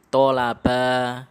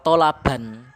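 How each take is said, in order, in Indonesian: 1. Kata ini diakhiri dengan vokal a panjang. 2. Kata ini diakhiri dengan bunyi n.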